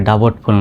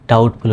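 First: ডাবটফুল with the b voiced; mistaken sounded b. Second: ডাউটফুল with no b sound; silent b. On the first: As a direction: put a b before the t, ডাবটফুল. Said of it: "ডাবটফুল নয়". (ব উচ্চারণ করে ডাবটফুল) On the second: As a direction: go straight from vowel to t in ডাউটফুল. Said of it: "উচ্চারণ হবে". (ব নীরব রেখে ডাউটফুল) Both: Shown as a demonstration.

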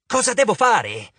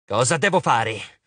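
First: High, demanding cry; impatient shriek. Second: Slow, grudging question. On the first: Arachne demanding instructions from Annabeth, shrieking impatiently. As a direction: demand it in an exasperated outburst. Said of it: "strillò Aracne". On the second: Arachne giving in to Annabeth, slow and grudging. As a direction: ask it slowly, giving in reluctantly. Spider yielding to Annabeth's plan. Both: A narrator's reading.

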